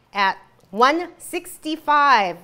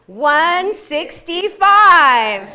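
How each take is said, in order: First: Drawn out slowly. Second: Slow, loud, booming number; hammed-up announcer boom; loud drawn-out repeat. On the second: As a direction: belt it out slowly for emphasis. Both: Shown as a demonstration. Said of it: "What did I say?".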